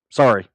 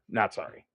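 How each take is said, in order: First: A loud, falling fake "Sorry"; mock apology. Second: "Not sorry" dropped much softer, stress on "not"; sarcastic aside. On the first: Mocking the woman in the video with a loud fake sorry. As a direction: bark out a sarcastic sorry. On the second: Pretend. Taking back his fake apology to viewers, softly. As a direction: mutter the retraction under the breath.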